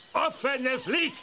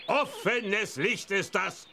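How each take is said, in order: First: "Licht" high, slow, rising emphasis; stress on Licht. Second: Said in the usual way. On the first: Acted. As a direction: lean hard on "Licht" with a rise. Warning repeated, emphatic.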